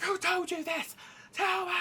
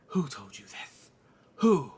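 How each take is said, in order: First: High, urgent shouted demand; drill-sergeant grilling. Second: Low, slow demand, then loud; Rhaenyra. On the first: King interrogating his son, high shouted demand. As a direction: drill him in a high put-on voice. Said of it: "drilling him like a drill sergeant". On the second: Mother questioning slur on her children, slow demand. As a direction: question slowly, punch the last word. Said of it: "then Rhaenyra says". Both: Acted.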